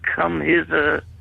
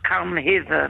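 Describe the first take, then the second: First: It is said in a put-on seductive tone. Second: It is said plainly, without any seductive tone. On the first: "How did they say it?" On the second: "That's not a sexy way"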